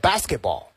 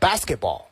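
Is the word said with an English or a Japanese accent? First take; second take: English; English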